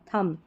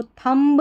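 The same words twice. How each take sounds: First: "thumb" ending on the m, b silent. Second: "thumb" with the b pronounced at the end; wrong demo "thumb" ending in an audible b; final b sounded. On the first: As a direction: say "thumb" as thum. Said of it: "यहाँ पर बी silent". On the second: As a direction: say "thumb" as thum-buh, b voiced. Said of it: "नहीं पढ़ना". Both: Shown as a demonstration.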